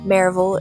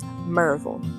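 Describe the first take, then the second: First: The name is said with three full syllables. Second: The name is shortened to two syllables.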